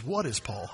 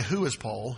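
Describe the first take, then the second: First: "What" stressed, quiet, falling at the end. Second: "Who" stressed, quiet, rising at the end. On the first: Pastor shows the congregation the text's question, stressing "What". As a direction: lean on "What" as the right reading. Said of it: "He says". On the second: Pastor shows the congregation the wrong question, stressing "Who". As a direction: lean on "Who" as the wrong reading. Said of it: "notice he didn't say". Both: Shown as a demonstration.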